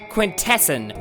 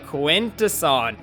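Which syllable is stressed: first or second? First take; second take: second; first. First: The stress is on the second syllable. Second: The stress is on the first syllable. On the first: The speaker calls it wrong. "they stress the second syllable, saying it quintesson" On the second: The speaker calls it right. "no, no, no, Quintesson"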